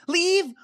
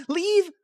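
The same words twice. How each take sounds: First: Higher, cracking echo of leave; wounded disbelief; a touch of mock anguish; broken echo. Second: Higher shocked echo; stunned at the word; mock disbelief. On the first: Echoed, voice breaking.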